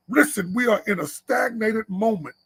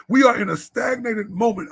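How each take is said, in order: First: Said in the usual way. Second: Repeated, shouted to the men; preached louder. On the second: Real, not acted. Preacher urges the men, louder on the repeat. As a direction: drive the line home, louder the second time.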